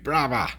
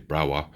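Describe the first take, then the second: First: It is said in a Cockney accent. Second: It is said in a standard British accent.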